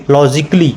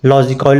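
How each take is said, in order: First: "लॉजिकली" as law-jik-li, silent a; correct pronunciation. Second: "लॉजिकल" ending in a full -kawl; wrong pronunciation. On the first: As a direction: drop the vowel after क in "लॉजिकली". ("लॉजिकली" में क के बाद अ silent) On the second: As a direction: give "लॉजिकल" a rounded vowel after क. ("लॉजिकल" को गलत ढंग से लॉजिकॉल बोलना) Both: Shown as a demonstration. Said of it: "लॉजिकल नहीं दे देंगे".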